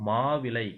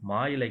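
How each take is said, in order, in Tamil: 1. இது எழுத்து வழக்கில் சொல்லப்படுகிறது. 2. இது பேச்சு வழக்கில் சொல்லப்படுகிறது.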